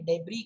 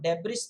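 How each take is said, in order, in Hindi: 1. अंतिम s की ध्वनि मौन होती है। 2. अंतिम s की ध्वनि बोली जाती है। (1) "जो अंत में एस है वो साइलेंट होता है" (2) "डेब्रिस नहीं"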